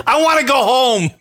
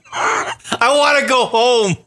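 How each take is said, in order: First: Half-joking cry for home; mock shout. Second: Slow, fake-sobbing whimper; slow hammed-up sob; mock crying. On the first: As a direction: yell it like a stranded kid. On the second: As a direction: blubber it slowly, hammed-up. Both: Mock despair after racist driver.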